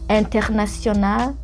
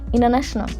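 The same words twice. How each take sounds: First: It is said with a French pronunciation. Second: It is said with an American English accent. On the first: "that's French" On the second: "In English, American English, they would go like international"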